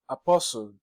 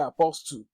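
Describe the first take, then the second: First: The T sound is silent in the word. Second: The T sound is pronounced in the word. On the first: The speaker calls it right. "The T is silent" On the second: The speaker calls it wrong. "Don't say"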